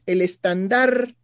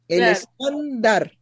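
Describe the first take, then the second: First: The word carries a French-style stress. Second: The word carries the usual Spanish stress. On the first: The speaker calls it wrong. "cambió el acento y lo puso en francés" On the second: The speaker calls it right. "No, es estándar"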